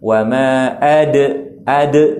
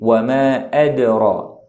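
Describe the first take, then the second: First: The d bounces heavily and is repeated. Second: The d bounces lightly and flows on. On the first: The speaker calls it wrong. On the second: The speaker calls it right.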